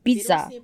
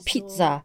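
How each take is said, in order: First: The word begins without a p sound. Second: The word begins with a p sound. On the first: This is how speakers without a p sound say it. "阿拉伯语并没有p 这个音 ... 而是念pizza" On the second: This is how speakers with a p sound say it. "他们不说pizza"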